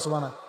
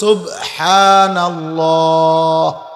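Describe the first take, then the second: First: It is rushed, with the final h sound dropped. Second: It is said fully, with every sound clearly articulated. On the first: The speaker calls it wrong. "হা উচ্চারণ তো হয় নাই, বা তো কলকলা হয় নাই" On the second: The speaker calls it right. "শব্দ তো হলো সুবহানাল্লাহ"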